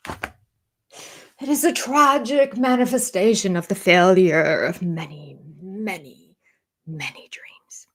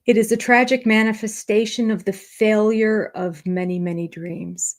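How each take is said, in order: First: Slow overwrought quote, fading to a whisper; mock pompous. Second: Said in the usual way. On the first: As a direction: draw it out theatrically, dying away on each many. Mocks his pompous line, repeated. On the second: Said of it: "he said".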